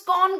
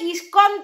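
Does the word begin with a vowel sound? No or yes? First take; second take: no; yes. First: The word starts directly with the consonant cluster. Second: The word starts with an added vowel sound. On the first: The speaker calls it wrong. "তুমি স্কন স্কন স্কন কেন করছো?" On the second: The speaker calls it right. "আরে ওটা ইস্কন তো।"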